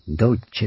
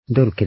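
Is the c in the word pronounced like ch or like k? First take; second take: ch; k. First: The middle consonant is a ch sound. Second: The middle consonant is a hard k sound. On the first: The speaker calls it right. "ドルチェと言います" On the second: The speaker calls it wrong. "ドルケでなく"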